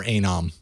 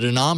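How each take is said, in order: First: Anom said AY-nom; pronunciation variant. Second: Anom said uh-NOM; pronunciation variant. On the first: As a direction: open Anom on a long "ay". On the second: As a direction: open Anom on a light "uh". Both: Shown as a demonstration. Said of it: "is it Anom or Anom?".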